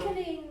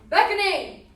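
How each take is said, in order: First: It is said softly and soothingly. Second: It is said in a demanding way.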